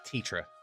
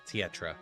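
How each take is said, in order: First: The name is said with two syllables. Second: The name is said with an extra syllable. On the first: The speaker calls it right. "It's just Tetra" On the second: The speaker calls it wrong. "You're adding an extra syllable in there"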